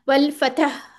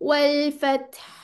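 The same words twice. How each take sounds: First: The final consonant is released abruptly with a bounce. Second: The final consonant is held briefly without release. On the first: The speaker calls it wrong. "एकदम से मखरज नहीं छोड़ना, वल फतह ऐसे नहीं कर देना" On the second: The speaker calls it right. "मखरज पे थोड़ी देर रुक जाना है। जैसे उसको होल्ड कर लें"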